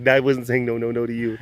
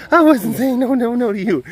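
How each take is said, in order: First: Said in the usual way. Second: High and loud, a squeaky voice for the cat; sweet, high-pitched baby talk to the cat; high pet-talk voice. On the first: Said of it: "repeated in another voice". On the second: Shown as a demonstration. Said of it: "same words redone".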